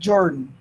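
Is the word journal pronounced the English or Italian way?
English. The word is pronounced in an English way. "ela pronuncia as duas em inglês"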